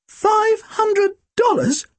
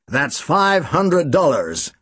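First: Very high, slow squeak of disbelief. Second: Slow, lightly American statement; understated Chicago drawl on the sum; American accent. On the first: Tim squeaks back the sum in shock, very high. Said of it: "Tim squeaked". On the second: Client states the amount in a light American accent. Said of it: "He spoke with an American accent". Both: Acted.

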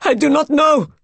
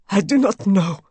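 First: High, loud, hysterical cry; rising scream. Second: Said in the usual way. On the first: A narrator's reading. Raoul answering the maid, voice risen to a scream. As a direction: scream it out in helpless horror. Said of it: "His voice rose to a scream". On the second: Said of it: "said Raoul".

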